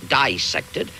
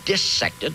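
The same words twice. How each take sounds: First: The first syllable sounds like 'dye', as in bisect. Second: The first syllable sounds like 'dis'. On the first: The speaker calls it wrong. "not dissected" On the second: The speaker calls it right. "I pronounce the word dissected"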